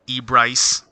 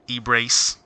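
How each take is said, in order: First: The last syllable does not rhyme with 'knee brace'. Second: The last syllable rhymes with 'knee brace'.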